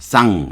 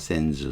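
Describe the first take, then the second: First: It has a nasal vowel and no final consonant. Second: It has an English vowel and a final z. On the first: "쌍 이렇게 발음이" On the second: "미국인들이 발음을 하면 … 센즈로 발음해요"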